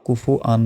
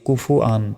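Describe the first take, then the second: Both takes have the same delivery.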